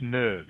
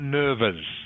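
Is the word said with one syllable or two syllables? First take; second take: one; two. First: The word is said with one syllable. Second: The word is said with two syllables. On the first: The speaker calls it right. "Just the e is silent. Okay, so it's nerves" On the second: The speaker calls it wrong. "Not not nervous"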